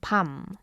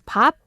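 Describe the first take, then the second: First: The word ends with an m sound. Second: The word ends with a p sound. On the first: "if it's followed by the mok sound ... then it is changed to pam" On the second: "it is okay to pronounce it as pop"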